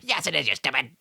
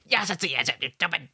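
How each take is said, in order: First: It is said in a deeper voice. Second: It is said in a higher voice.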